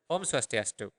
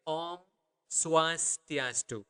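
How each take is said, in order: First: Said in the usual way. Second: Slow version. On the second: Shown as a demonstration. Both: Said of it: "That would be the normal speed".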